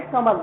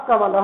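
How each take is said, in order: First: "कमल" without the final breathy ha; wrong pronunciation. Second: "कमल" said ka-ma-la-ha; careful "कमल" with final visarga, kamalaha; visarga sounded. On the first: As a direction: drop the visarga, just ka-mal. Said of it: "गलत उच्चारण कर रहे हो आप". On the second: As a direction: add an echoed ha to the end of "कमल". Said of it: "शुद्ध उच्चारण जो होगा आपका". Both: Shown as a demonstration.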